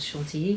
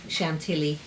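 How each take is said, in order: First: It is said the French way. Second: It is said the American way.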